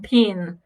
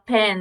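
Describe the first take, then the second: First: The vowel sounds like the i in bit. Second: The vowel sounds like the e in bed. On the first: "O E deles, em algumas palavras, tem som de I" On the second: "falar pen"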